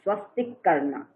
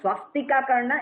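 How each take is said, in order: First: The first word ends on the k sound. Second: The first word ends with a final a vowel. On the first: The speaker calls it right. "it is swastik karna" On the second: The speaker calls it wrong. "it is not swastika karna"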